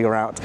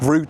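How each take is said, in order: First: It is said in an American accent. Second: It is said in the speaker's own accent. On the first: The speaker calls it wrong. "Americans when they say route" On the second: The speaker calls it right. "I say root"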